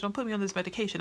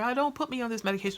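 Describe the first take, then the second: First: Mock pleading sister, repeated. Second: Fast, higher imitation of a begging patient; mock pleading sister. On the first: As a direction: repeat the plea, a little calmer. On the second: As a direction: rush it out, begging the doctor. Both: Sister pleading with her doctor.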